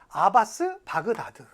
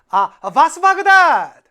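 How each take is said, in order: First: The name is said smoothly without a break. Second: A break follows the drawn-out first syllable. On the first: The speaker calls it wrong. "이렇게 하시면 기억 안 나고요" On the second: The speaker calls it right. "이렇게 하시면 돼요"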